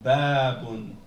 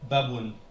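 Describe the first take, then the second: First: The vowel is long. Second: The vowel is short. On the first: "avec le alif" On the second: "il n'y a pas d'alif"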